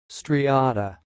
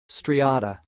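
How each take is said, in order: First: The word is said slowly. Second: The word is said at normal speed.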